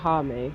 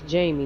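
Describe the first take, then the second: First: It begins with an H sound, like Hame. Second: It begins with a J sound, like Jamie. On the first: The speaker calls it wrong. "that's how you would pronounce it in Spanish" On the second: The speaker calls it right.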